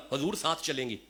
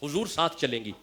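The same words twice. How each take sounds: The two takes are said the same way.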